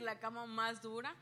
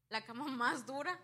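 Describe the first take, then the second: First: Said in the usual way. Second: Louder, stressing más; emphatic. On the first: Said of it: "puedo decir". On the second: Real, not acted. Telling the church about the hardest bed, emphatic. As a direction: hit más hard and loud.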